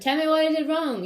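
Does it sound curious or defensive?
defensive. It sounds defensive and accusing. The speaker is closed off to criticism. The speaker calls it wrong.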